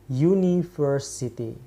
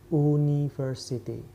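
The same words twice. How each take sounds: First: The first vowel starts with a 'yoo' sound. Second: The first vowel is a plain 'oo' sound. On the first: The speaker calls it right. "U-nya dibaca seperti U" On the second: The speaker calls it wrong. "Bukan university"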